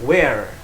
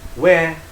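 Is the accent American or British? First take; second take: American; British. First: It is said in an American accent. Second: It is said in a British accent. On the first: "Di Amerika" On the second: "Di Inggris"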